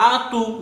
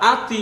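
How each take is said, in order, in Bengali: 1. শেষের t-এর পরে একটি ছোট u আসে। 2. শেষের t-এর পরে একটি ছোট i আসে। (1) "আতু বা আতি এরকম হবে না" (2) "আতু বা আতি এরকম হবে না"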